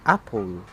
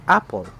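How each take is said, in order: First: Apple with the stress moved to the end, ap-PUL; wrong stress. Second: APPLE stressed on its first syllable, AP-ple. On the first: Teacher showing how not to pronounce it, final-syllable stress on apple. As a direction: lean on the second syllable of apple, drawing it out. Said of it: "That is why we pronounce it". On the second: Teacher showing learners the right way, first-syllable stress on apple. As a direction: hit the first half of apple, let the rest drop. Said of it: "putting a stress in the up part". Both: Shown as a demonstration.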